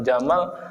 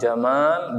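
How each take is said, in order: First: The second vowel is short. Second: The second vowel is long. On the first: The word means camel. The speaker calls it wrong. "kalau cuman Jamal artinya onta" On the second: The name means beautiful. The speaker calls it right. "Jamalnya harus pakai alif"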